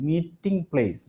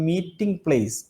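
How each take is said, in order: No difference in how they are said.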